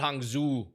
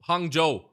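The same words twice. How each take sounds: First: The second syllable does not sound like 'Joe'. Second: The second syllable sounds like 'Joe'. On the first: The speaker calls it wrong. "not Hangzhou" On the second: The speaker calls it right. "I remember it because it was Joe, but Hangzhou"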